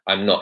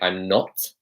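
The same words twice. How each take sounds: First: The final T of not is weak or dropped. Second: The final T of not is strongly pronounced. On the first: "So he's not saying" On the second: "heavily pronouncing the T at the end of not"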